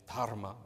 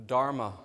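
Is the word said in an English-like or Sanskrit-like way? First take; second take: Sanskrit-like; English-like. First: The word is said with a Sanskrit-like pronunciation. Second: The word is said with an English-like pronunciation. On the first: The speaker calls it right. "closer to the true pronunciation" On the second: The speaker calls it wrong. "poorly pronounced by me"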